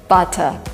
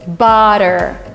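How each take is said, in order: First: The middle consonant is a clear T. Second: The middle consonant sounds like a D. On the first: This is the British way of saying it. "not butter" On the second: This is the American way of saying it. "When you have double T, it is substituted by D"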